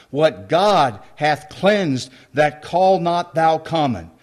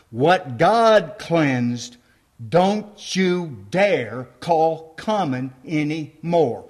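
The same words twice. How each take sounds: First: God stressed, each word weighed slowly; slow scripture reading. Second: God and dont hit hard, words spaced very slowly; clear slow restatement. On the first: Preacher reading the verse to the congregation, slow and solemn. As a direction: read it solemnly, leaning on God. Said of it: "It says God said that". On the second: Preacher stating God's word clearly to the church, very slow and emphatic. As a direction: lay it down plainly, word by word. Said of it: "State it clearly". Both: Shown as a demonstration.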